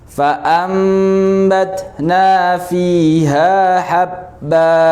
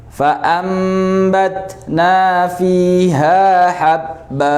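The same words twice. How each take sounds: No difference in how they are said.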